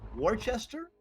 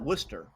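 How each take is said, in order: First: The name is not pronounced the English way. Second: The name is pronounced the English way. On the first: "Is it Worcester?" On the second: "in England they would call that Worcester"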